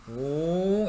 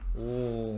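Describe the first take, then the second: First: The sound is made with a high pitch. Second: The sound is made with a low pitch. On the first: The source is moving toward the listener. "이렇게 고음이 돼" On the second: The source is moving away from the listener. "저음이 돼. 저음. 웅 이렇게"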